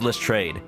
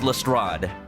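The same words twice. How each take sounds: First: The name is pronounced the English way. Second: The name is pronounced the French way. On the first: This is how the English family says it. "they pronounce it themselves as Lestrade" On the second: This is the original French pronunciation. "The French name is pronounced Lestrade"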